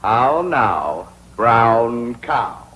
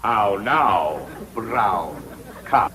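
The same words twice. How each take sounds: First: "How now, brown cow?" with a rise on how and a fall on brown; diction drill. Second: "How now, brown cow?" repeated softer, falling on now and fading on brown; softer diction drill. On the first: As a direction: round every vowel of "How now, brown cow?" like an elocution coach. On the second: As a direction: echo "How now, brown cow?" quietly, letting it die away. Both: Shown as a demonstration. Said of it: "practice diction and intonation".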